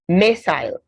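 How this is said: It is said with a British pronunciation.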